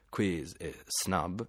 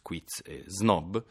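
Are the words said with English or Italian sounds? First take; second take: English; Italian. First: They are said with English sounds. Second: They are said with Italian sounds. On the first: Only a few sticklers say them this way. "suoni non italiani... pochi maniaci" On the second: This is how almost everyone says them. "tutti noi diciamo"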